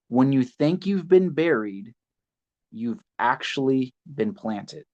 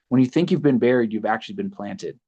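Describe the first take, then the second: First: It is said slowly and deliberately. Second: It is said at a normal pace.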